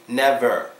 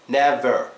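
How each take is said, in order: The two takes are said the same way.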